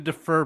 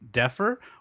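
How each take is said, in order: First: The first syllable is a weak 'dih' sound. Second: The first syllable sounds like the word 'deaf'. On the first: It means to postpone a payment. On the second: It means more cool than someone else.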